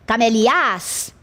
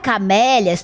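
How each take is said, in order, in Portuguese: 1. A tônica está na última sílaba. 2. A tônica está na segunda sílaba. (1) "para a última, ficaria camelias? Também não é assim que se pronuncia" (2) "não seria na primeira e nem na última? Não"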